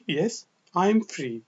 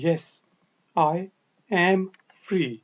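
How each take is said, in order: First: "I am" is shortened to "I'm", unstressed. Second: "I am" is said in full, with emphasis.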